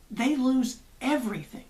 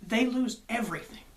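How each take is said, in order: Both takes have the same delivery.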